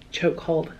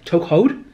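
First: Chokehold. said flat and soft; Chokehold. as a firm settled statement. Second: Chokehold? asked with rising tune; Chokehold? as a puzzled question; questioning rise. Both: Shown as a demonstration. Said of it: "the actual chokehold".

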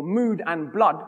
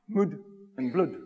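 First: Said in the usual way. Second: "Mood" and "blood" given the same short vowel; "Mood and blood" said Shakespeare's way, as a rhyme; old rhyming pronunciation. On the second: Shown as a demonstration.

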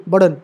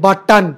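First: बटन said with the t sounded once, the double t not repeated; बटन said plainly with one t, the way it is really spoken; correct pronunciation. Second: बटन said as full but-tan, every letter sounded; teacher shows students the wrong way, बटन said as full but-tan with both t sounds; wrong full spelling-out. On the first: Teacher corrects students and gives the right बटन, with one t sound. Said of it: "नहीं, बटन". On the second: Teacher mock-reads बटन letter by letter, both t sounds given. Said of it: "बटन तो पूरा पढ़ते हैं". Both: Shown as a demonstration.

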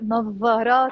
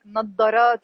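First: نظارات with an emphatic voiced "th" sound for ظ; standard Arabic pronunciation. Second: نظارات with a heavy d for ظ; Egyptian pronunciation. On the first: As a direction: say نظارات as "nath-tha-RAAT", voiced th. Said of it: "they say in standard Arabic". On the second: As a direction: say نظارات as "nad-da-RAAT", Egyptian style. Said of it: "in Egyptian Arabic". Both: Shown as a demonstration.

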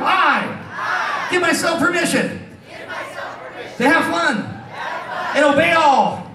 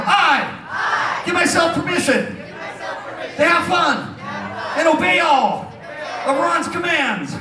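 First: High, drawn-out crowd call; yelled oath. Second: High, stretched-out crowd call; yelled oath, slowly. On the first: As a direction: call it out for the audience to repeat. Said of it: "Yell really loud". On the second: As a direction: call out each phrase slowly for repeating. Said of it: "I'll talk slow". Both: Shown as a demonstration.

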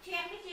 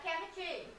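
First: "Chemistry" with a wrong ch sound at the start; đọc sai âm ch. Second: "chemistry" starting with a k sound; âm khờ. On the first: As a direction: say "Chemistry" starting like English "chair". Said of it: "không đọc là chờ mà các bạn đọc là khờ". (đọc "Chemistry" bắt đầu bằng âm "chờ") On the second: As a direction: say "chemistry" with a hard k for the ch. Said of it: "các bạn đọc là khờ". (đọc "chemistry" bắt đầu bằng âm "khờ") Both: Shown as a demonstration.

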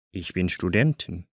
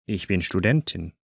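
The two takes are said the same way.

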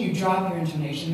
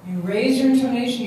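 First: Lower-pitched, falling demonstration; dropped intonation. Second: Higher-pitched demonstration of rising intonation; raised intonation. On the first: Teacher showing mirroring technique, voice dropped lower. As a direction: let "intonation" sink lower. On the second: Teacher showing mirroring technique, voice raised higher. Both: Shown as a demonstration.

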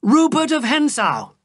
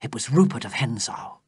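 First: Rupert of Hentzau called high and loud; shouted name. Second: Said in the usual way. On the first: A narrator's reading. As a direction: hurl the name out in triumph. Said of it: "I shouted".

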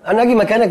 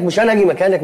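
First: اجي hit hard, the rest plain; stress on اجي. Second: انا punched, اجي left light; stress on انا. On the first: The friend tells his roommate who should swap, stressing اجي. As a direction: lean on the word اجي to set the meaning. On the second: He corrects the roommate, stressing انا not اجي. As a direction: put the weight on انا. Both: Acted.

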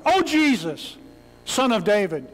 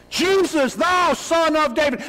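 First: A mild, ordinary call for help; just calling out, no urgency; casual call out. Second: Desperate cry. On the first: Preacher contrasts it with an animal cry. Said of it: "This isn't some guy just yelling out". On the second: Blind beggar crying out to Jesus by the road. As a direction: let it tear out of you like an animal cry. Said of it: "This is a cry that cannot be contained". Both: Shown as a demonstration.

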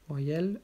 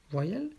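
No difference in how they are said.

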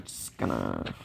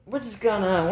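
First: Much lower and softer, fading out; words sinking into a mumble; trailing off. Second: Said in the usual way. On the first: Real, not acted. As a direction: let it die away to almost nothing. Stalling phrase trails away.

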